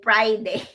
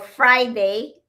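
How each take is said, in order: First: The word begins without an F sound. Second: The word begins with a clear F sound. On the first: "we say Friday" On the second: "Or Friday"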